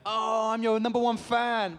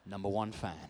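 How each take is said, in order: First: High, loud, drawn-out mock fan gushing; hammed-up starstruck squeal. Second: Low, deadpan mock quote; unimpressed, lower-pitched repeat; sarcastic echo. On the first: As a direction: imitate an overexcited fan. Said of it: "they're like". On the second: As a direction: drily throw the fan's claim back. Sarcastic echo of the fan's claim.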